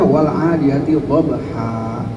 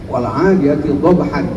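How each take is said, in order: First: The last word ends with a long 'a' sound. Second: The last word ends with an 'n' sound.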